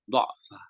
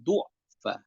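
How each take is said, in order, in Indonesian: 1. Vokal pertama adalah bunyi 'a'. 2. Vokal pertama adalah bunyi 'u'. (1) "mushaf memang tertulis dengan fathah" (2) "dengan dhammah"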